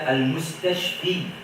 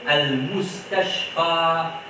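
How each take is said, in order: First: The word ends with an 'ee' vowel. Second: The word ends with an 'ah' vowel. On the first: The speaker calls it wrong. "ne pas dire al-mustashfi" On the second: The speaker calls it right. "On dit al-mustashfa"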